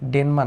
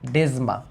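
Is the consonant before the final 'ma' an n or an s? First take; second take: n; s. First: The middle consonant is an n sound. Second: The middle consonant is an s-like sound. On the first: The speaker calls it wrong. "ডেনমা না" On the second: The speaker calls it right.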